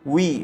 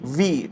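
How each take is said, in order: First: The sound is a w, both lips rounded. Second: The sound is a v, teeth on lip. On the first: The speaker calls it right. "ডাব্লিউ E যখন বলি উই" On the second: The speaker calls it wrong. "ঠোঁট থেকে এরকম করে ছোটবেলায় মনে আছে যে টিচাররা বলতো, এটা আসলে শুদ্ধ না।"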